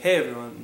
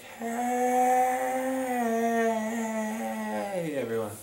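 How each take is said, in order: First: The word hey is short and clipped. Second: The word hey is long and drawn out.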